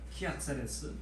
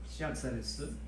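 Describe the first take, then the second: First: The name begins with a K sound. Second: The name begins with an S sound. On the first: "K 발음도 나잖아요" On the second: "S 발음도 나지만"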